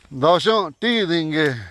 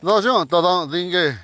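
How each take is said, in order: First: Ti Dingue with "tee" in the middle; slow Ti Dingue, long "tee" before Dingue; Omaha way. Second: Argent, ta Dingue with "tathon" in the middle; slow Argent, ta Dingue, full middle syllables; Ponca question form. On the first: Teacher showing how Omaha relatives ask if you're tired, Omaha way. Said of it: "But our Omaha relatives, when they talk". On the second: Teacher asking if you're tired, Ponca question form. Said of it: "you would say". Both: Shown as a demonstration.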